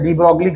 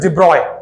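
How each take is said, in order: First: The name is said with a g sound, 'broglee'. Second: The name is said without a g, 'broy'. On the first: The speaker calls it wrong. "De ब्रोगली गलत प्रोनाउंसिएशन है" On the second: The speaker calls it right. "It is डी ब्रॉय"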